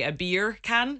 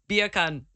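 First: Said in the usual way. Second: "beer can" run together like Jamaican "bacon"; Jamaican accent. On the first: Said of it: "if you want to say bacon in Jamaican". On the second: Shown as a demonstration. Host shows how bacon sounds in Jamaican, Jamaican accent. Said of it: "say bacon in Jamaican".

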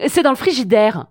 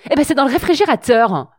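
First: Said in the usual way. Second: Prim, precise TV host voice; Marc-Olivier Fogiel voice. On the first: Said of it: "la phrase correcte serait". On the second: Retold or imitated. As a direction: talk like a polished TV presenter. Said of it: "j'ai pris la voix de Marc-Olivier Fogiel".

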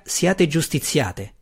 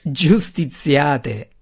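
First: Said in the usual way. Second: Slow, scornful repeat of the word; scornful echo. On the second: A narrator's reading. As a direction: drag it out as if the idea is absurd. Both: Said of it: "Sinafai rise a quel concetto assurdo".

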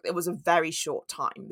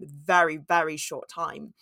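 First: Said in the usual way. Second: Very repeated, low and slow; stress on very. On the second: Real, not acted. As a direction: lean on each very, drawn out. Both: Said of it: "repeats very for emphasis".

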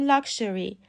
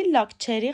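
First: لاکشری with sh, lak-sheri; correct pronunciation. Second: لاکچری with ch, the wrong way; wrong pronunciation. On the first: Teacher giving the correct لاکشری, lak-sheri. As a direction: say لاکشری with sh, not ch. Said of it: "باید بگیم لاکشری". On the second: Teacher showing the wrong لاکچری with ch. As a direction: demo the mistaken لاکچری, lak-cheri. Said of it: "لاکچری غلطه". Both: Shown as a demonstration.

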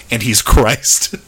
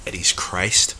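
First: Slow, louder deadpan imitation; mock matter-of-fact. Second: Plain, understated delivery; matter-of-fact. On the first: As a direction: parrot it slowly as a plain pronouncement. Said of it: "was just so matter of fact. Just like". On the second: Real, not acted. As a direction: state it as simple fact. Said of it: "was just so matter of fact".

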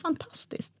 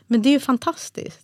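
First: Whispered Fantastiskt, much softer and unvoiced; flat whispered echo. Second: Higher, bright rising delight on fantastiskt; overjoyed husband. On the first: Wife echoing her husband's delight in despair. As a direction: echo the word back with no joy at all. She echoes him in despair. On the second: Retold or imitated. Husband reacting to triplets news with delight. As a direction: burst out with joy. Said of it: "det var liksom hans reaktion".

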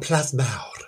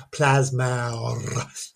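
First: Plasmawr said the Welsh way, ending in a rolled mawr; Welsh pronunciation. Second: Plasmawr drawn out slowly in Welsh, plas-MAOWR; Welsh pronunciation. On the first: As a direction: give Plasmawr its Welsh sounds, plas-MAOWR. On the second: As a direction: linger on Plasmawr with Welsh vowels. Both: Shown as a demonstration. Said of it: "Did you like the accent there?".

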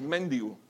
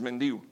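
First: "mendigo" with the mistaken accent on the first syllable, MEN-digo; wrong stress, méndigo. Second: "mendigo" stressed on the middle syllable, men-DI-go; correct stress, mendígo. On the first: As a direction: demonstrate "mendigo" wrongly as MÉN-di-go. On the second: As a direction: teach "mendigo" as men-DÍ-go, accent on the I. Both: Shown as a demonstration. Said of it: "debemos de educar también".

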